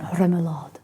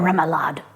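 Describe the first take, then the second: First: It is said in a French accent. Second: It is said in a plain English accent.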